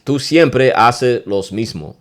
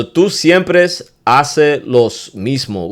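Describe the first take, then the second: First: Slow demo phrase. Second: Slow, clear teaching delivery of siempre; slow demo phrase. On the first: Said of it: "Get what I'm saying?". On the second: Teacher slowly models a Spanish argument phrase. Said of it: "Ooh, that's a good one". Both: Shown as a demonstration.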